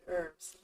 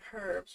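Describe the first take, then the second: First: The word starts without any h sound. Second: The word starts with a clear h sound.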